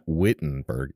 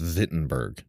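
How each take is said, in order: First: The name has an English-style pronunciation. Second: The name has a German-style pronunciation. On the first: The speaker calls it wrong. "It's not Wittenberg" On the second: The speaker calls it right. "it's Wittenberg"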